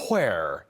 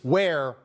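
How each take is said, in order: First: The word begins with a breathy 'hw' sound. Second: The word begins with a plain 'w' sound. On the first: The speaker calls it wrong. "pronouncing all the silent H's in every word? I hate when people do that" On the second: The speaker calls it right. "It's where"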